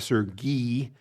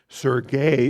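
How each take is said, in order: First: The name is said in its Ukrainian form. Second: The name is said in its Russian form. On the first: This is the form the person prefers. The speaker calls it right. "that's the Ukrainian pronunciation" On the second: This is the form of the other country. The speaker calls it wrong. "is the Russian pronunciation"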